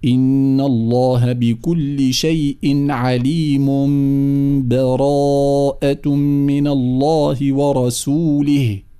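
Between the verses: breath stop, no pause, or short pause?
no pause. The verses are joined with no pause between.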